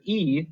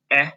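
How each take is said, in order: First: "E" said as its name, ee; long vowel sound. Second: Short E, "eh", as a brief isolated sound; short vowel sound. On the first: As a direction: hold a clear long ee for "E". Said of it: "The long sound for the letter E". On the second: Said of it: "their short vowel sounds". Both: Shown as a demonstration.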